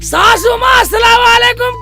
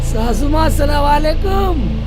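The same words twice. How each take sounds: First: The greeting is said loudly. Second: The greeting is said at normal volume.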